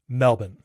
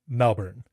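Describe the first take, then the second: First: It is said without the R sound. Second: It is said with the R sound. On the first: This is how locals say it. "Australians say Melbourne" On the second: This is how an American says it. "I do pronounce my R's pretty much wherever they are"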